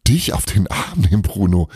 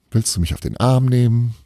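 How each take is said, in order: First: Hammed-up horror, teasing him back; mock horror. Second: A stern, doubting question, pitched higher. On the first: Belana teases Bruno in mock horror. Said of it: "In gespieltem Entsetzen". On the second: Bruno doubts Belana, a stern question. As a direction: Bruno eyes her sternly and asks it. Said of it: "warf ihr einen strengen Blick zu". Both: A narrator's reading.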